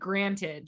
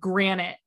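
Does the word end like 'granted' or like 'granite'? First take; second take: granted; granite. First: The word ends with a clear 'ted' sound. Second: The word ends with a 'nit' sound. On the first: The speaker calls it right. "she never said granted" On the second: The speaker calls it wrong. "She said granite"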